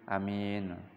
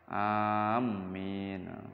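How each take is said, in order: First: The first vowel is a short a. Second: The m sound is doubled and held. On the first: "Yang kedua dibaca pendek hamzanya" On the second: "Yang keempat mimnya ditasdid"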